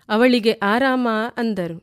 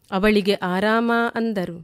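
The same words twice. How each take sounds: The two takes are said the same way.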